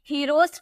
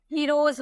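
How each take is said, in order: First: "हीरोज" ending in a hissed S sound; wrong S ending. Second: "हीरोज" ending in a buzzing Z sound. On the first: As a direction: say "हीरोज" with final S unvoiced, like "heross". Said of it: "हीरोज नहीं बोलेंगे". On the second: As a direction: say "हीरोज" with the final S voiced as Z. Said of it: "हीरोज बोलेंगे". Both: Shown as a demonstration.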